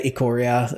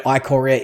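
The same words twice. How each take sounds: First: "Ikoria" as ih-KOR-ee-uh; second variant. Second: "Ikoria" as eye-KOR-ee-uh; first variant. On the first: Host showing the other variant, "Ikoria" as ih-KOR-ee-uh. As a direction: open "Ikoria" with a short "ih" sound. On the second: Host admitting it varies, "Ikoria" as eye-KOR-ee-uh. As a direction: open "Ikoria" with a long "eye" sound. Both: Shown as a demonstration. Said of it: "depending on what precedes it in my sentence".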